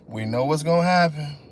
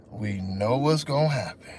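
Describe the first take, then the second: First: Said in the usual way. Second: Low, soft, doom-laden; deep ominous voice. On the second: Retold or imitated. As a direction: say it like a grim undertaker. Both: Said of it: "repeated with different voices".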